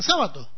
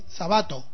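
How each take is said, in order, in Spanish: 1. La tónica está en la primera sílaba. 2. La tónica está en la segunda sílaba. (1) "como esdrújula" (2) "escrito como palabra grave"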